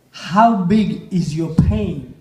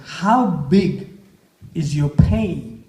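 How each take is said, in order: First: Slower, weighing each word; slow emphatic question. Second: Said in the usual way. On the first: Shown as a demonstration. Speaker to the audience, repeating the question slowly. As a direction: let the question sink in slowly.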